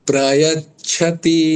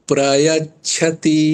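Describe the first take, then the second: The two takes are said the same way.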